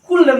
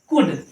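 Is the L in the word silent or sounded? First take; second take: sounded; silent. First: The L sound is pronounced before the D. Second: The L is silent, with no L sound. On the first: The speaker calls it wrong. "कुल्ड नहीं है" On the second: The speaker calls it right. "एल silent है"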